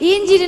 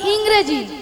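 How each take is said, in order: First: The word is said as injiri. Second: The word is said as ingreji. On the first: The speaker calls it wrong. "নয়" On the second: The speaker calls it right. "বলো"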